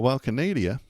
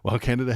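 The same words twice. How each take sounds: First: It is said in a put-on Canadian accent. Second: It is said in his ordinary accent.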